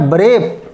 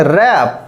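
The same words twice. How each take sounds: First: "ब्रेप" with the w sounded; wrong pronunciation. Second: "रैप" with a silent w; correct pronunciation. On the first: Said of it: "अब wrong पढ़ेंगे". ("ब्रेप" गलत उच्चारण, w बोलकर) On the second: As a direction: say "रैप" with no w, the right way. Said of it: "right पढ़ेंगे तो पढ़ेंगे". ("रैप" सही उच्चारण, w मौन) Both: Shown as a demonstration.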